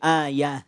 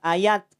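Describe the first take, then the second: First: The word ends with an h sound. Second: The word ends with a t sound. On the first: The speaker calls it right. "tapi ayah" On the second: The speaker calls it wrong. "tidak ayat"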